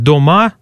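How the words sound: The unstressed first vowel is a full O. This is the northern dialect form. "здесь будут говорить «дома», но «давай»"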